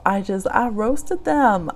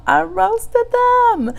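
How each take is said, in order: First: Said in the usual way. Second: Very high, drawn-out squeal on roasted them; squealed repeat. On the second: Retold or imitated. Telling her livestream she roasted them, high slow squeal. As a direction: stretch it out in a high gleeful squeal.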